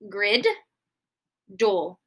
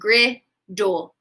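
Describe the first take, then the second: First: The D sound is said twice, in two parts. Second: The D sound is said once, blended smoothly. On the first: The speaker calls it wrong. "am I going to make that D sound two times?" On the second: The speaker calls it right. "I do not make the first D sound. It is silent"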